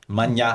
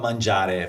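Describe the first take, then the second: First: The ending is cut off, Roman style. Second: The word is said in full, standard Italian.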